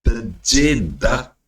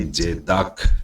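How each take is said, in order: First: The word begins with a t sound. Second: The word begins without a t sound. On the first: The speaker calls it wrong. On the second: The speaker calls it right.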